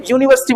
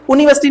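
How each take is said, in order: First: "यूनिवर्सिटी" opening on a clear y-glide; सही उच्चारण. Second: "यूनिवर्सिटी" starting with a plain "u", no y-sound; गलत उच्चारण. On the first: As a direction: say "यूनिवर्सिटी" with "yoo" at the start. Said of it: "यह क्या आई ना". ("यूनिवर्सिटी" की शुरुआत "यू" ध्वनि से करें) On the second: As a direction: say "यूनिवर्सिटी" wrongly as "उनिवर्सिटी". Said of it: "उनी नहीं है". ("यूनिवर्सिटी" को बिना "य" ध्वनि के "उनिवर्सिटी" बोलें) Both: Shown as a demonstration.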